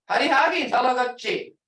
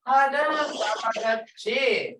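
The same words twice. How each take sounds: First: Mean order. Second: Hadam talagachi said slowly and kindly, as an invitation; friendly invitation. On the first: Retold or imitated. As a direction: order the kid home early. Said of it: "That's like an order saying". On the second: Shown as a demonstration. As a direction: ask the visitor warmly to come again. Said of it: "Come back again to a visitor".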